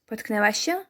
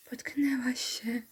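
First: Said in the usual way. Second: Slow, softer sarcastic whisper of "Potknęłaś się"; whispered sceptical repeat; mock whisper. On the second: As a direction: hiss the echo in disbelief.

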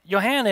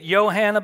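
First: Said in the usual way. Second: Careful German-style Johanna, Y at the start; Johanna with a Y sound. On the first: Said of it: "you say it Johanna". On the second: Shown as a demonstration. Narrator correcting how his wife's name is said, careful. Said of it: "she's particular about that".

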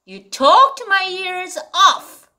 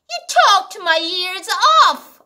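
First: Slow, stress on talked; slow model reading. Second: Slow repeat, talked leaned on; again slowly, fading on off; repeat model reading. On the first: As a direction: read it slowly, talked strong. (천천히 talked를 강조하며) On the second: (다시 천천히 읽기) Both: Shown as a demonstration.

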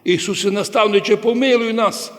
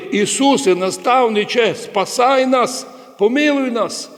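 First: Mildly raised, higher pleading call; quick imitation of blind men calling for mercy; retold crying out. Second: Imitated crying out. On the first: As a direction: call out the plea, only half raised. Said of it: "вони так кричали". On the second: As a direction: call out like blind men begging for mercy. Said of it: "Сліпі кричали".

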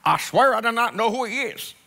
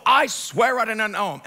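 First: Put-on Southern accent, emphatic oath. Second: Emphatic sworn denial; swearing an oath. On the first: Peter swearing to bystanders, mock Southern accent. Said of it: "he's speaking in a southern accent". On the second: Acted. Peter taking an oath before bystanders, emphatic denial. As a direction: swear it with force. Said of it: "now he starts, like, taking an oath".

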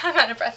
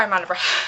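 First: Breathless laugh through it. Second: Breathless, winded words; out of breath. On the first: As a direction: laugh it off, winded. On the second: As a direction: catch your breath while talking. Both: Real, not acted.

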